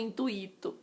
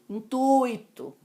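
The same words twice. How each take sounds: First: The stress falls on the i vowel. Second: The stress falls on the u vowel. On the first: The speaker calls it wrong. "não foi com intuito" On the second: The speaker calls it right. "Assim como intuito"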